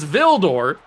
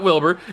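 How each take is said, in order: First: The name begins with a V sound. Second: The name begins with a W sound. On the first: The speaker calls it right. "It's Vildor" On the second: The speaker calls it wrong. "It's not Wilbur"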